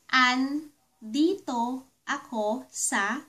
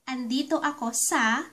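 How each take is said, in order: First: It is said slowly and carefully. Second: It is said at a normal, quicker pace.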